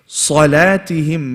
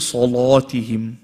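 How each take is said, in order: First: The l sound is light and thin. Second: The l sound is heavy and thick. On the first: The speaker calls it right. "Make sure the lam is light" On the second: The speaker calls it wrong. "Don't say salatihim. That's in a different recitation"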